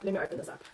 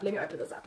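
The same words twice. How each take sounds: First: Toneless whisper, much softer. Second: Much softer, lower murmur. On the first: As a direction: breathe the words out as a whisper. Final repetition whispered. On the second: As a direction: say it quietly to yourself. Repeated quieter. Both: Acted.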